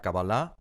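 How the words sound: The word is said with a Hebrew pronunciation. "con alguien en hebreo te dirá Kabbalah"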